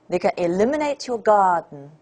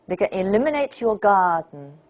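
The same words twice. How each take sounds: Both takes have the same delivery.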